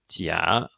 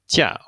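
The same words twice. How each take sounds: First: The pitch dips low, then rises. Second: The pitch falls sharply from high to low. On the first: It means fake. "in the third tone" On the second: It means vacation or leave. "in the fourth tone"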